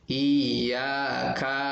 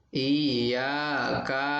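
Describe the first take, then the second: The two takes are said the same way.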